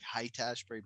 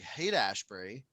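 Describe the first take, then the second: First: The first word rhymes with 'light'. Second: The first word rhymes with 'late'. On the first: The speaker calls it wrong. "sometimes I want to overcorrect to be like height Ashbury" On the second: The speaker calls it right. "So it's it's pronounced like hate"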